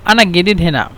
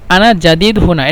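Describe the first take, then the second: First: It is said in regional dialect pronunciation. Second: It is said in standard Arabic pronunciation. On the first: "আর এখানে আমরা বলি" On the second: "এটা হলো ফুসহা মানে শুদ্ধ ভাষা"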